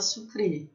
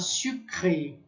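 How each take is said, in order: First: It is pronounced the Brazilian way. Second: It is pronounced the French way. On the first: This is how people say it locally. "fala sucré" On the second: This is the original pronunciation, not used locally. "Não se fala sucré"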